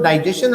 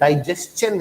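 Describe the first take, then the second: First: The word is said quickly and casually. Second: The word is said slowly and carefully. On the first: The speaker calls it wrong. "हम लोग बोलते तो हैं ऐसे flow में" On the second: The speaker calls it right. "इसका सही pronunciation डाइजेशन है"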